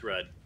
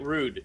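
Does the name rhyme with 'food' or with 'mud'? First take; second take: mud; food. First: The vowel is short, like in 'mud'. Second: The vowel is long, like in 'food'. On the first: The speaker calls it right. "it's Rudd" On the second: The speaker calls it wrong. "Is it Rude? No"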